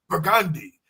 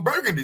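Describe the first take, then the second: First: It is said the way locals say it. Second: It is said the way an outsider says it. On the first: The people of the city say it. "even though it's spelled the same way, we say Burgundy" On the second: A visitor to the city said it. "she said, "I'm staying at a hotel on Burgundy Street.""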